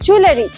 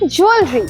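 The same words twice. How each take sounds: First: The word is said with three syllables. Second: The word is said with two syllables. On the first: The speaker calls it wrong. "অনেকেই বলে" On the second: The speaker calls it right. "আসল pronunciation হলো জুয়েলারি। মনে রাখবে এতে দুটো syllable আছে"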